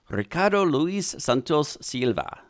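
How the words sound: The name is said in a Spanish accent.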